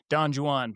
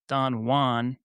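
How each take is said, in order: First: The J in Juan sounds like a J. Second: The J in Juan sounds like an H. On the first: It follows the traditional English way of saying it. "it is traditionally pronounced using the English pronunciation Don Juan" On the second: It follows the Spanish way of saying it. "Spanish pronunciation, Don Juan. In this case, the J is pronounced like an H in English"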